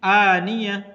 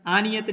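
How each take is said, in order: First: आनिया ending on a, t turned to h; आनिया, सही; stopping form. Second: आनियत ending on t; आनियत, गलत; wrong ending shown. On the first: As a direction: stop on आनिया, no t. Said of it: "आनियत नहीं, आनिया". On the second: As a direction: say आनियत with the t kept. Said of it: "आनियत नहीं". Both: Shown as a demonstration.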